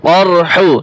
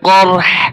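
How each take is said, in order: First: The word ends with a short vowel after h. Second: The word ends with only a breathy h sound. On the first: The reading continues without stopping. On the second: The reader stops at this word.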